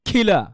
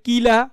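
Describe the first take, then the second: First: The first k is said with a puff of air. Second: The first k is said without a puff of air. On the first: The speaker calls it right. "অ্যাসপারেটেড মানে কি ধাক্কা হবে" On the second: The speaker calls it wrong. "অনেকে বলে কিলা"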